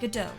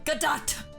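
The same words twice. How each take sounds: First: The final T is silent. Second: The final T is clearly pronounced. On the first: "Silent T, it's French. ... I believe it's pronounced Godot" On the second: "What if I just said it with the T to spite everybody?"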